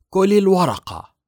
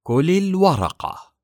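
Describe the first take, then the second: First: High, loud, falsely sweet command; sweetly cruel order. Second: Slow, high and loud, every word weighed; very slowly. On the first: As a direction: smile while giving a cruel order. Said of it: "ابتسمت سون غيليان ابتسامة لطيفة". (أمر بابتسامة لطيفة قاسية) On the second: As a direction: drag the order out coldly. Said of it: "وقالت ببطء شديد". (ببطء شديد وبصوت عال) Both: A narrator's reading.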